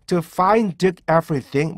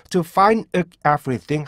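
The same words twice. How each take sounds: First: Slow "To find everything" as "to fain-deuk everything"; exaggerated first-step "find / everything"; released D stop. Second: "To find everything" as "to fain-euk everything"; second-step drill with a catch before "everything". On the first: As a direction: sound the "d" of "find" fully, then break. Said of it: "먼저 이걸 하신 다음에요". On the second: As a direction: swap the d of "find" for a throat stop. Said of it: "하신 다음에 윽 소리를 약화시키고". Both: Shown as a demonstration.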